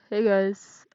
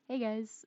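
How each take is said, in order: First: The voice is flat with almost no pitch change. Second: The voice is lively with varied pitch.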